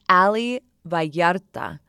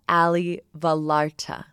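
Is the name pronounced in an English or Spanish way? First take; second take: Spanish; English. First: The name is pronounced with Spanish sounds. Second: The name is pronounced with English sounds. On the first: The speaker calls it right. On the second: The speaker calls it wrong.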